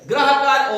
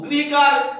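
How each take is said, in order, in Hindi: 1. पहला अक्षर "gra" की तरह बोला जाता है। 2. पहला अक्षर "gri" की तरह बोला जाता है। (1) "ये रा का रूप है" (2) "री का रूप है"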